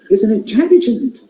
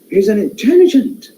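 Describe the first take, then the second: First: It sounds surprised, with modulated voice. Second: The same.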